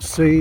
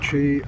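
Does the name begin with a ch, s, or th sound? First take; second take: s; ch. First: The name begins with an s sound. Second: The name begins with a ch sound. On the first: "It's not C" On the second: "it's not Chi"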